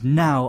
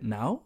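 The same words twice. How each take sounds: First: The pitch falls quickly from high to low. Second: The pitch rises from middle to high. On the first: It is an insistent demand. "It is a falling tone. It goes from very high to very low very quickly" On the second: It is asked as a question. "the second one goes up"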